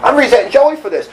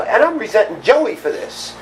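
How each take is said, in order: First: Joey said higher and louder, the rest falling; stress on Joey. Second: Said in the usual way. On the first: Shown as a demonstration. Telling his sponsor, he stresses Joey louder and higher. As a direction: lean hard into Joey with a louder, higher push.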